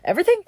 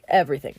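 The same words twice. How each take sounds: First: "Everything?" high with a questioning rise. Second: "Everything." low with a final fall; confirming. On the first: Joseph checks with his new boss, questioning. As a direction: ask "Everything?" in disbelief, pitched up. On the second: Potiphar answers Joseph's question, confirming. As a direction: drop "Everything." low, settling the matter. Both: Retold or imitated.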